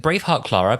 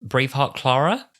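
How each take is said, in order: First: 'Braveheart, Clara' as an address, no question; intended delivery. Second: 'Braveheart, Clara' rising into a question; unsure misdelivery. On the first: Shown as a demonstration. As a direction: say 'Braveheart, Clara' to her as encouragement. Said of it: "It was meant to be like". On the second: Retold or imitated. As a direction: lift the end of 'Clara' as if asking. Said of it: "but he almost felt like".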